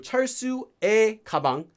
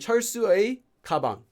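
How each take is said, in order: First: The possessive marker sounds like 'e'. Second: The possessive marker sounds like 'ui'. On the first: The speaker calls it right. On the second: The speaker calls it wrong.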